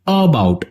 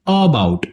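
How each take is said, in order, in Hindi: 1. पहला स्वर जोर वाला है और पूरा उच्चारण होता है। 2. पहला स्वर जोर वाला है और पूरा उच्चारण होता है।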